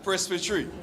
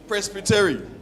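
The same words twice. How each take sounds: First: It is said with a British pronunciation. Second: It is said with an American pronunciation. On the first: The speaker calls it right. "I always grew up say, saying" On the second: The speaker calls it wrong. "That is American pronunciation"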